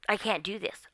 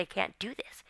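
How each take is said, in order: First: Said in the usual way. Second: Hushed. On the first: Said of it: "it's like". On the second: Retold or imitated. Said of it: "I said".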